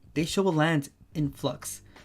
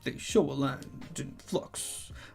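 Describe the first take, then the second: First: It is read in a plain, ordinary voice. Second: It is read in a deep, dramatic trailer voice.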